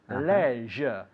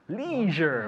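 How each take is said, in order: First: The word is said with a British pronunciation. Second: The word is said with an American pronunciation. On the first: "In England, we say leisure" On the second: "In Estados Unidos, dicen leisure"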